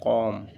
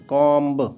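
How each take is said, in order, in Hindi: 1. यह शब्द m पर खत्म होता है, इसमें b नहीं है। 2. यह शब्द सुनाई देने वाली b की आवाज़ पर खत्म होता है। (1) "उसको प्रोनाउंसिएशन में कॉम होता" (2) "नॉर्मली जब जानकारी नहीं होती तो कॉम्ब करते हैं"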